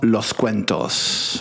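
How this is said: The final S sounds are clearly pronounced. This is the northern Spanish way. "Se pronuncia la S"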